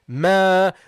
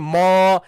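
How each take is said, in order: First: The syllable ma sounds light and thin. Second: The syllable ma sounds heavy and full. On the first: The speaker calls it right. "No, Ma. The meme is light" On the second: The speaker calls it wrong. "Don't make it heavy. Don't say Ma"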